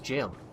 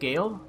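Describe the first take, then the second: First: The word begins with a J sound. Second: The word begins with a hard G sound. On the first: The speaker calls it right. "it's just pronounced jail" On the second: The speaker calls it wrong. "if you pronounce it Gale, you're wrong"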